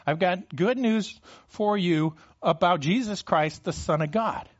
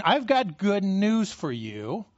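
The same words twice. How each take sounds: First: Said in the usual way. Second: Slow proclamation. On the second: Acted. Preacher voicing Mark's good news, slow and deliberate. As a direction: stretch out "I've got good news for you" slowly, word by word. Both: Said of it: "He's saying".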